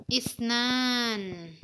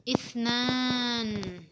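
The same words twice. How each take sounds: No difference in how they are said.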